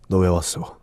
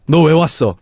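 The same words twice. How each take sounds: First: It is spoken in a low, deep voice. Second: It is spoken in a high, light voice. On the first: The speaker calls it right. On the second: The speaker calls it wrong. "I'm singing like, hey, and I'm singing all this stuff, and then I go"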